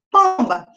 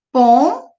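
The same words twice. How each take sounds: First: Said in the usual way. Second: "Pomba" in two beats, pom, ba, with a long gap; split into syllables. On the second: Shown as a demonstration. Teacher showing the nasal syllable, "Pomba" split in two. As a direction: hold "pom" with a rise, pause, then "ba". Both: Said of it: "dividir essas palavras em sílabas".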